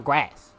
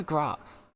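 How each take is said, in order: First: GRASS with the short "a" of "cat"; American pronunciation. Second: GRASS as "grahs", long British "ah"; British pronunciation. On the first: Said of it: "at least he says grass". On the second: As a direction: approve the British GRASS with its open long vowel. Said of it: "The British way". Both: Shown as a demonstration.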